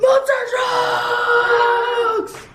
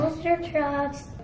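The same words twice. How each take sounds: First: It is said with an excited gasp. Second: It is said flatly, without excitement.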